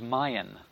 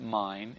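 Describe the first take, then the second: First: The word is said as two syllables. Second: The word is said as one syllable. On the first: "it was Mayan, two syllables" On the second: "It wasn't mine"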